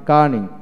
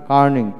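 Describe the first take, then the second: No difference in how they are said.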